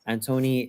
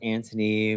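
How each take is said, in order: First: The name is said the Catalan way. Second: The name is said the English way. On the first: This is the name as used in the family. "how I grew up, it's Antoni because Antoni is Catalan" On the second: This is how some friends say it. "Some of my friends would pronounce it as Anthony"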